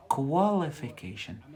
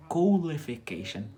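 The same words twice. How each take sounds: First: Qualification said with kwal at the start; qual-ification. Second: Qualification said louder, starting with coal, rising; coal-ification. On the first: Teacher showing the qualification sound for students. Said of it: "The second one is qual". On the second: Teacher showing coalification for students. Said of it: "So we've got the first one". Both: Shown as a demonstration.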